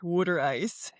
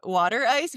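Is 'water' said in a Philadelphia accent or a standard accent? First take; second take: Philadelphia; standard. First: Water is said in a Philadelphia accent. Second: Water is said in a standard accent. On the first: "if you're from Philly, they pronounce it water" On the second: "it's called water ice"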